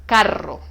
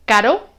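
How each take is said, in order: First: "Carro" with the rr bouncing several times; strong trilled r. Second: "caro" with one quick tap of the tongue on the r; soft single-tap r. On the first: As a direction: roll the rr in "Carro" with a vibrating tongue. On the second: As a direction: say "caro" with a light single-flap r. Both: Shown as a demonstration. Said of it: "con el sonido fuerte rebota".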